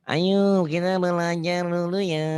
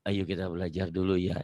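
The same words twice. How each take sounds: First: The voice is small and thin. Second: The voice is full and authoritative. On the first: It sounds unsuitable for teaching people. The speaker calls it wrong. "nggak mungkin kalau ngajarin orang" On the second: It sounds fitting for teaching people. The speaker calls it right. "belajar berwibawa gitu sedikit ya"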